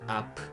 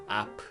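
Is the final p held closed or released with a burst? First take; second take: released; released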